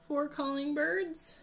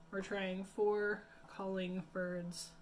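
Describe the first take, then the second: First: Excited announcing. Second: Said in the usual way. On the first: Shown as a demonstration.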